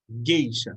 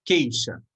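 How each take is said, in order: First: Gueixa with a voiced G at the start; gueixa, G clearly voiced; said slowly apart. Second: Queixa with a clear K at the start; queixa, spelled out in sound; said slowly apart. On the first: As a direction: say gueixa, opening on a hard voiced G. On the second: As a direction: say queixa, opening on a hard K sound. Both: Shown as a demonstration. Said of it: "Então, é".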